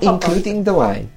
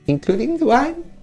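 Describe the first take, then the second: First: The voice falls at the end like a statement. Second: The voice rises at the end like a question.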